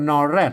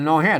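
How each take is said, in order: First: The second syllable begins with an r sound. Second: The second syllable begins with an h sound. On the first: This is the Central Thai pronunciation. "อันไทยเป็นนอแรดนะ" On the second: This is the Northern Thai pronunciation. "นอแฮดนะเมืองนะ"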